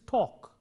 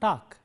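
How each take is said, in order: First: The vowel is long with rounded lips. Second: The vowel is said with unrounded lips. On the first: The speaker calls it right. "it is talk" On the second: The speaker calls it wrong. "It's not talk"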